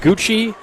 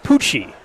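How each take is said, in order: First: The name begins with a G sound. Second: The name begins with a P sound. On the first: The speaker calls it wrong. "Instead of saying like Gucci" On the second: The speaker calls it right. "it should have been Pucci"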